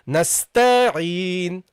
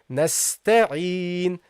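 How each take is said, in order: First: The vowel after the t is drawn out. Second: The vowel after the t is short. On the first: The speaker calls it wrong. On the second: The speaker calls it right.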